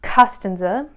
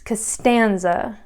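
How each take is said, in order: First: The stress is not on the second syllable. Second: The stress is on the second syllable. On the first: The speaker calls it wrong. "It's not Costanza" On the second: The speaker calls it right. "the second syllable is the one that has the natural accent"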